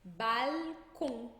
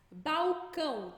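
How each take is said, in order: First: "Balcon" slowly, true L closing the first syllable; francês com L. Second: "Balcão" slowly, first syllable ending in U; português com U. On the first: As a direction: say "Balcon" in French, L never as U. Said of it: "O L nunca vai ter som de U". ("Balcon" em francês, com L bem pronunciado) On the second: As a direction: say "Balcão" the Brazilian way, "bau-cão". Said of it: "como é que ficaria?". ("Balcão" à brasileira, L soando U) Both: Shown as a demonstration.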